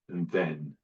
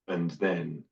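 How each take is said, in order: Both takes have the same delivery.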